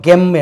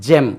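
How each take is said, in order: First: The word begins with a hard g sound. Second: The word begins with a j sound. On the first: The speaker calls it wrong. "இது நமக்கு தெரியாம இருந்தா first time வந்தா நம்ம gem என்று சொல்லுவோம்" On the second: The speaker calls it right. "this is J"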